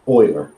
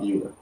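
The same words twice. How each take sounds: First: The name is said unlike its spelling. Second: The name is said as its spelling suggests. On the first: The speaker calls it right. "So Euler" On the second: The speaker calls it wrong. "not Euler"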